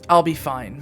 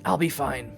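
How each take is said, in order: First: It is said louder, with more force. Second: It is said quietly, hollow and distant.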